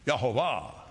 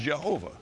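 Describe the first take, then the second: First: The name begins with a Y sound. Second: The name begins with a J sound. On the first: The speaker calls it right. "you might as well say it right" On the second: The speaker calls it wrong. "Englishized as Jehovah"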